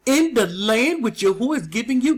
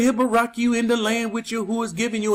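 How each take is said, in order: First: "In the land" leaned on, rising through "the land which Yahuwah is giving you"; emphasis on the land. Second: Quick, throwaway reading of the verse; rushed skim-over. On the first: Shown as a demonstration. Preacher shows the congregation the verse's key words, emphasized. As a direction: weigh down "In the land", each word deliberate. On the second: Retold or imitated. Preacher mimics pastors skipping the verse, rushed. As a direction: rattle it off like it doesn't matter. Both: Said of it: "They don't put emphasis on it".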